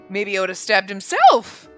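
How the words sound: It sounds sly and suspicious. The speaker seems to be hiding something. "she says it so suspiciously"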